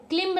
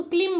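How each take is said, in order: First: क्लिम्ब with a sounded final B; B pronounced. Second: क्लिम ending on M; silent B. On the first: Teacher showing learners the mistake, क्लिम्ब with audible B. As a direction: release the B in क्लिम्ब. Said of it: "क्लिम्ब नहीं बोलते हैं". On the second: Teacher giving the correct reading, क्लिम with silent B. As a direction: say क्लिम with no final B. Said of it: "हम इसको क्लिम बोलते हैं". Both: Shown as a demonstration.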